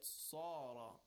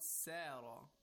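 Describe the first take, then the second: First: The s sounds heavy with rounded lips. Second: The s sounds light and thin. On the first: The speaker calls it right. "it's not seen, it's sad. Second of all, it's tafkhim. We have to recite with a rounded mouth and a heavy voice" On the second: The speaker calls it wrong. "it's not sara"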